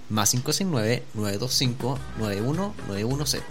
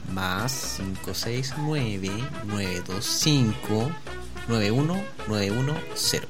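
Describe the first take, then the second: First: The number is read very quickly. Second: The number is read slowly. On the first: The speaker calls it wrong. "Parece que lo dije muy rápido" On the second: The speaker calls it right. "va lentito"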